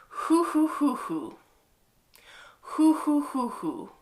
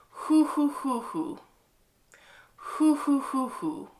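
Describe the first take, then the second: Both takes have the same delivery.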